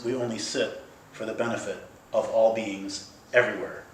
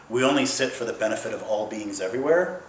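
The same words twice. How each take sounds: First: Broken into deliberate phrases, falling at the end; meaningful emphasis. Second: Said in the usual way. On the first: Shown as a demonstration. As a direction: set ALL BEINGS apart to show what is meant. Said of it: "what they mean is". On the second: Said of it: "when our teachers say".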